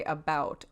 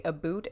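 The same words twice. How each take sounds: First: "about" with an ow vowel; standard "about". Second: "a boot" with an oo vowel; Canadian "a boot". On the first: Showing how others say the word, ow in "about". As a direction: say "about" to rhyme with out. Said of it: "and some say about". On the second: Showing how some Canadians say about, oo in "a boot". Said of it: "some Canadians say a boot". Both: Shown as a demonstration.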